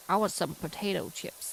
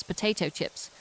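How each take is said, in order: First: Badly faked American accent. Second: Said in the usual way. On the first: British streamer mocking what Americans call crisps, bad American accent. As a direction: put on a clumsy American accent. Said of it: "That was the shittest American accent ever".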